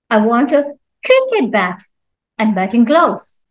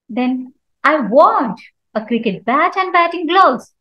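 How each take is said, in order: First: The stress falls on the word cricket. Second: The stress falls on the word want. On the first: It must be a cricket bat, not another bat. "Cricket means not anything else" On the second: The buyer wants to buy, not just look. "So here I'm giving stress on want"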